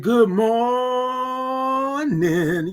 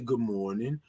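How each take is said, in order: First: The words are stretched out with full sounds. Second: The words are said short and clipped. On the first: The speaker calls it right. "you got to have all the O's and R's and the I N G's in it" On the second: The speaker calls it wrong. "We don't say good morning"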